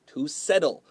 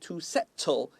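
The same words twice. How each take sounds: First: The middle consonant is a soft, D-like tap. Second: The middle consonant is a crisp, clear T. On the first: The speaker calls it right. "it's to settle. A lot of T's sound like D's" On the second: The speaker calls it wrong. "不是 to settle"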